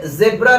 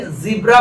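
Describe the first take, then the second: First: ज़ेब्रा with 'zeb' at the start; short-e zebra. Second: ज़ीब्रा with 'zee' at the start; long-ee zebra. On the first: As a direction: say ज़ेब्रा with an 'e' vowel. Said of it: "लोग कहेंगे इसे". (ज़ेब्रा में 'ज़े' की आवाज़) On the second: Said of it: "नहीं ज़ीब्रा पढ़ते हैं". (ज़ीब्रा में लंबी 'ई') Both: Shown as a demonstration.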